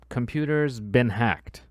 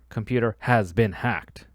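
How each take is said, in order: First: The word 'has' is squeezed into the noun. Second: The word 'has' is said in full. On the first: The speaker calls it right. "Usually it comes down to" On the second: The speaker calls it wrong. "We don't usually say"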